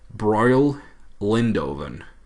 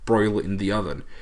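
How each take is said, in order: First: It sounds like 'broil Lindoven', one run-together word. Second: It sounds like 'broil in the oven', separate words. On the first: "I pronounce it this way in my head" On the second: "it's supposed to be like broil in the oven"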